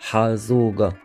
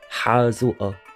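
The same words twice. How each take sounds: First: The consonant is pronounced as a hard g. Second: The consonant is pronounced as a glottal stop. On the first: This is the southern pronunciation. "in the south where it would be ... like a g, as in go" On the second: This is the northern pronunciation. "This is the northern pronunciation where the qaf is pronounced as a glottal stop"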